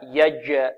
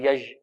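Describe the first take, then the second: First: The j sound is fully stopped, with a bounce. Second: The j sound is not fully stopped. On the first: The speaker calls it right. "والجيم هنا شديدة، فيها انحباس في الصوت" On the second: The speaker calls it wrong. "يج أو يج، لا"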